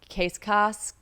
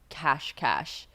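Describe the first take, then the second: First: Both syllables are said with a plain s sound. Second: Both syllables are said with a sh sound. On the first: The speaker calls it wrong. "I'm gonna say this wrong" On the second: The speaker calls it right. "I just did the pronunciation, and it's like cash cash"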